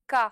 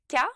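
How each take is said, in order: First: The K is made far back, more guttural. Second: The K is made forward, less guttural. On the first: "en russe, K. ... Le son russe est plus guttural" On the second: "En français, on dit K"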